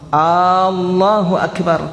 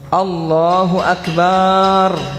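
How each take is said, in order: First: The first vowel, at the start, is drawn out. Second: The vowel after b in Akbar is drawn out. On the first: It turns into a question whether God is great. "Dia kasih panjang D P hamzah yang pertama" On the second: God is a drum. "Atau Akbar dia kasih panjang, ba-nya di Akbar"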